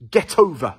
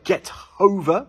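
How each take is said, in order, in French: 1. Get et over se prononcent ensemble, comme un seul mot. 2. Une courte pause sépare get et over. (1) "on dit get over. Donc on insiste sur le T" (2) "au lieu de dire get over"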